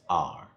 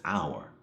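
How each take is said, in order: First: "our" imitated as a one-syllable "ar"; accented "our". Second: "our" fully enunciated, like "hour". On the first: Critic mimics the actor's odd accent, "our" said as "ar". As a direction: say "our" like "ar", dropping the glide. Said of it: "he says it as". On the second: Retold or imitated. Critic shows the actor's next sentence, "our" enunciated like "hour". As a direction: sound out both parts of "our", as "ow-er". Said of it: "he enunciates and says".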